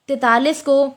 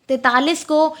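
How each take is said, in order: The two takes are said the same way.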